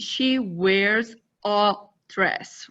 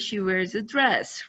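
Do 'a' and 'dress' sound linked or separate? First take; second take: separate; linked. First: Each word is said separately and clearly. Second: 'A dress' runs together like one word. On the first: "we do not say" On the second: "we often say ... it's similar to the address"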